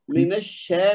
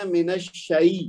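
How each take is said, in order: First: "من الشے" with a flattened "shay"; wrong vowel demo. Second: "من الشی" slow, ending in "shai"; correct glide demo. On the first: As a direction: say الشے as one plain "sheh" vowel. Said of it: "من الشے نہیں کہنا". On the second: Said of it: "کہنا من الشی". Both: Shown as a demonstration.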